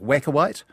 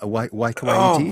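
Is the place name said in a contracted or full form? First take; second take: Contracted; Full. First: The name is said in a shortened, contracted form. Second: The name is said in its full form. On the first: This is the old local mispronunciation. The speaker calls it wrong. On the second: This is the place's actual name. The speaker calls it right.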